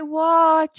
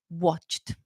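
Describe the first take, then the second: First: The word ends without a final t sound. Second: The word ends with a clear final t sound. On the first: The speaker calls it wrong. "it will sound like a grammar mistake when in the end of the day is actually a pronunciation mistake" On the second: The speaker calls it right. "pronounce your E Ds"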